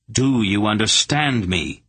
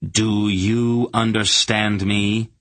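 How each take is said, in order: First: Firm demand at normal pace, DO stressed; repeated demand. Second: Drawn out very slow, each word weighed; slow menacing demand. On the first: Garion repeating his demand to the hierarch, firm. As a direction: ask it again, harder at the start. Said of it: "Garion repeated". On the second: Garion demanding of the hierarch, slow and menacing. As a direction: lean on every word like a threat. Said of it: "he demanded". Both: A narrator's reading.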